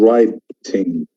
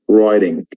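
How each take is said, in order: First: It has a British accent with a clear t. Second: It has an American accent with a soft d-like t. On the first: "And writing in England" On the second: "but in America it becomes writing"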